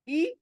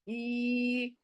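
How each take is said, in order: First: The vowel is short and quick. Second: The vowel is stretched out long. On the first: The speaker calls it right. "जल्दी से पढ़ी जाने वाली आवाज" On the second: The speaker calls it wrong. "ऐसे नहीं करना है"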